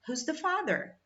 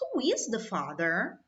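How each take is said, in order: First: Who and is are run together as who's. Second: Who and is are said separately, with emphasis. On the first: It is a plain question with no special emphasis. "usar tudo abreviado" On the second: The speaker wants to emphasize the question. "se eu quisesse enfatizar ... eu estou enfatizando até no meu tom"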